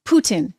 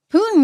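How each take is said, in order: First: Putin corrected, with a clearly sounded t; careful Putin. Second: Putin with a swallowed t, New Hampshire accent. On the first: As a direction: enunciate both syllables of Putin. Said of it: "Sorry, that's my New Hampshire accent". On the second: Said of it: "that's my New Hampshire accent coming out". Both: Real, not acted.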